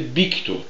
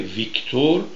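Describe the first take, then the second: First: The name begins with a B sound. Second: The name begins with a V sound. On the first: "یه اسپانیش وقتی صحبت میکنه ... میگه بیکتور" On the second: "به جای ویکتور"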